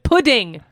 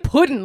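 First: The word ends with a clear g sound. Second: The word ends without a final g sound. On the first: The speaker calls it right. "How do you say it?" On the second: The speaker calls it wrong. "Why are you saying it pudding? Like you're in a Mark Twain"

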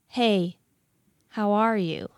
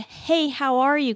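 First: It sounds smug, like showing off to an ex. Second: It sounds like a warm, friendly greeting.

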